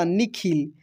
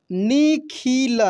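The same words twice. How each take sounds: First: Said in the usual way. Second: निखिल slowly as ni, khi, la; syllable by syllable. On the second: Shown as a demonstration. Teacher reading for learners, निखिल slowly syllable by syllable. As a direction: stretch out each syllable of निखिल. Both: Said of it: "अब direct पढ़ते हैं".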